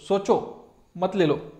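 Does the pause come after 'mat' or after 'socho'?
after socho. There is a pause right after 'socho'. Think it over and do not take it. "Negative आहे"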